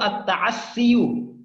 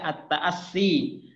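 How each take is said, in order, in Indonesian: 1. Kata ini diakhiri dengan suku kata 'yu' utuh. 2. Kata ini diakhiri dengan 'i', tanpa 'yu'. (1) "sebenarnya di situ at-ta'assiyu" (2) "maka cuma dibaca at-ta'assi"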